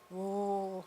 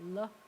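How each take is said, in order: First: The L is heavy, tongue flat on the roof. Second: The L is light, tongue tip behind the teeth. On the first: "Americans take the tongue and they kind of splat it on the roof of their mouths" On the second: "it's kind of dainty. You take the tip of your tongue and you put it right behind your teeth"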